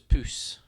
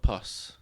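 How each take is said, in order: First: The vowel is short, as in 'puss'. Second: The vowel is as in 'bus'. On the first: The moth is named for being cat-like. The speaker calls it right. "so it's puss" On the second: The name refers to the body fluid. The speaker calls it wrong. "not pus"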